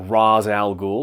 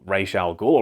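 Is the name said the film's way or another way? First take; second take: film's way; another way. First: The name is said in the film's pronunciation. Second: The name is said in a non-film pronunciation. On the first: The speaker calls it right. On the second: The speaker calls it wrong.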